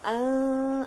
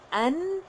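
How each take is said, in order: First: The n is hidden in a nasal hum. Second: The n is pronounced fully and clearly. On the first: The speaker calls it right. "hendaknya a ah" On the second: The speaker calls it wrong. "ia bukannya an"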